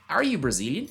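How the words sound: It is said with clear questioning intonation. The speaker calls it right. "como se você estivesse realmente olhando para alguém... Capricha nessa entonação"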